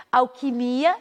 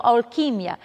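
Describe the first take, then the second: First: Alquimia stressed on MI; Portuguese pronunciation. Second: Alquimia stressed on QUI; Spanish pronunciation. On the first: Teacher giving the Portuguese word, stress on MI. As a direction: say Alquimia with a long MI. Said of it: "em português". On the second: Teacher giving the Spanish word, stress on QUI. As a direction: hit QUI in alquimia, short final ia. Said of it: "em espanhol". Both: Shown as a demonstration.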